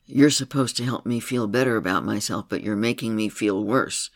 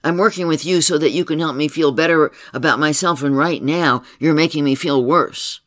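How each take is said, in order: First: Said in the usual way. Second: Louder, higher, heated complaint; angry accusation. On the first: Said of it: "she let her little girl say to her". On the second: Retold or imitated. Client accusing her therapist of making things worse, heated and loud. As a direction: let the grievance boil over.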